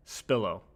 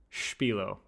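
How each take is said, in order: First: "Spillo" with plain sp and short i; American "Spillo". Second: "Spilo" with "shp" start; European Spilo. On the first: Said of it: "Spillo is the American pronunciation". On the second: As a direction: begin "Spilo" with sh, German style. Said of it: "Spilo if you're European". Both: Shown as a demonstration.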